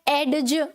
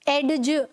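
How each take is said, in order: No difference in how they are said.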